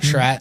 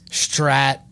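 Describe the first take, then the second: First: The name begins with a 'shr' sound. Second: The name begins with an 'str' sound. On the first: The speaker calls it right. "everyone calls me Shrat" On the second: The speaker calls it wrong. "Strat with a T"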